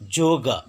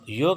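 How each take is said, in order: First: The word begins with a j sound. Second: The word begins with a y sound. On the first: The speaker calls it right. "पहले रहने से ज उच्चारण" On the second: The speaker calls it wrong. "योग नहीं"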